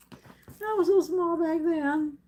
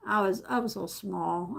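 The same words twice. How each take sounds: First: "so" stretched long and pitched higher, the line slowed; wistful drawn-out "I was so small"; drawn-out emphasis. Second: Said in the usual way. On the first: Real, not acted. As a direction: lean into "so" and take the line slowly. Repeating it for emphasis.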